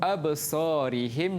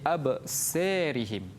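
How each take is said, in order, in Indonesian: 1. Huruf a panjang sebelum ra terdengar biasa. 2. Huruf a panjang sebelum ra condong ke e.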